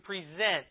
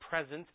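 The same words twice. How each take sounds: First: The stress is on the second syllable. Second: The stress is on the first syllable. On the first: It is the verb, meaning to offer or show. The speaker calls it right. "To present" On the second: It is the noun. The speaker calls it wrong. "That'd be the noun"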